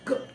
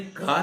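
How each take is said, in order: First: The consonant is said bare, with no vowel. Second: The consonant is followed by a long a vowel. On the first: The speaker calls it right. "ऐसा कुछ उच्चारण होगा। आ बिल्कुल आ नहीं जाए" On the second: The speaker calls it wrong. "नहीं का नहीं बोलना है भैया"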